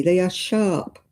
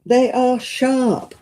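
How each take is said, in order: First: Said in the usual way. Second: Slow, louder and higher, leaning on every word; emphatic. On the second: Real, not acted. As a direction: press the point home to the viewers, slowly. Shows buttons to viewers.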